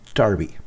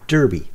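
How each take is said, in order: First: It is said the British way, like 'dar-by'. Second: It is said the American way, like 'dur-by'.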